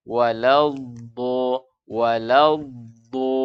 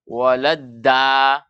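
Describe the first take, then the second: First: Slow WALADDO with a heavy, rounded DDO; dha tebal. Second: Slow WALADDA with a thin, open DDA; tipis jadi dal. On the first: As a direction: draw out WALADDO, tongue root raised. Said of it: "dengan mengangkat pangkal lidah". (WALADDO dibaca tebal, pangkal lidah terangkat) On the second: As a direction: draw out WALADDA, light flat-tongued D. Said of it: "ketika dia tipis nanti bunyinya apa". (WALADDA dibaca tipis seperti huruf dal) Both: Shown as a demonstration.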